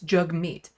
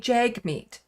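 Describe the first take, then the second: First: The first vowel sounds like the vowel in 'hug'. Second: The first vowel sounds like the vowel in 'hag'. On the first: The speaker calls it right. "Jug like hug" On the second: The speaker calls it wrong. "that's how you think it would be pronounced. It is not"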